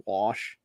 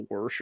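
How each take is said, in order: First: "wash" with a plain vowel, no R; local "wash". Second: "worsh" with an R slipped in; R-coloured "worsh". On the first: Shown as a demonstration. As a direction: say "wash" without any R sound. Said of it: "it was how we say". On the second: Retold or imitated. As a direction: put an R before the SH in "worsh". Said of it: "it comes out like".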